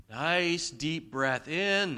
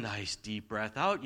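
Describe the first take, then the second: First: Breathing-in demo. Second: Slow, lower "nice deep breath out"; breathing-out demo. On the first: Preacher guiding parents through a calming breath in, drawn out. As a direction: draw out "in" like a long inhale. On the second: Preacher guiding parents through a calming breath out, slow and low. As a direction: let "out" sink like a released breath. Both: Shown as a demonstration. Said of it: "taking a breath".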